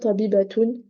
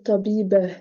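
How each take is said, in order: First: The word ends with a 't' and '-un' ending. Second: The word ends with a soft 'h' sound. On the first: The speaker calls it wrong. "Je vais pas dire tabibatoun" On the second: The speaker calls it right. "je vais dire tabibah. Et je m'arrête comme ça"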